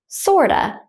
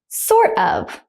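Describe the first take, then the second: First: The words blend, ending in a short uh. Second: Both words are said fully and separately.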